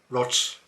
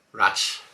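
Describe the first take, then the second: First: Rots with an o vowel. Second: Said in the usual way. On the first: Shown as a demonstration. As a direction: say Rats as Rots.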